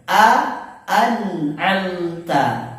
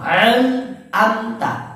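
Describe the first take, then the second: First: The first vowel is plain, the second is throaty. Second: The first vowel is throaty, the second is plain. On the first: The speaker calls it right. "seperti itu" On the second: The speaker calls it wrong. "biasa sering orang kebalik"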